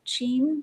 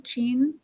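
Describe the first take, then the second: First: "Shein?" with a soft sh sound, rising; "Shein?" said as sheen, asking. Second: "Shein?" with a ch sound, rising; "Shein?" said as cheen, asking. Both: Shown as a demonstration. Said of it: "how do you pronounce it".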